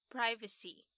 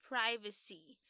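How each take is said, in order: Both takes have the same delivery.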